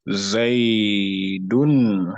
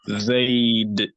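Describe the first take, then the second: First: The name ends with an -un vowel ending. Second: The name ends on a bare final consonant. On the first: Used when another word follows without a stop. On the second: Used when stopping or pausing on the word. "Zayd is going to give the dal a sukun"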